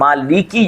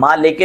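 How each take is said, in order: First: The word ends in an 'ee' vowel. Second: The word ends in an 'ay' vowel. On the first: The speaker calls it right. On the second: The speaker calls it wrong.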